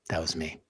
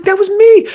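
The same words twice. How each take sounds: First: That was me, said very softly under the breath; hushed realisation. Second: That was me, high and loud, hitting "me"; emphatic outburst. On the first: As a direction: let it slip out quietly, to yourself. Quiet realisation about the dads. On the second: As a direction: cry out the realisation with full force. Repeats the line with great force. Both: Retold or imitated.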